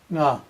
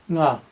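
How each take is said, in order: Both takes have the same delivery.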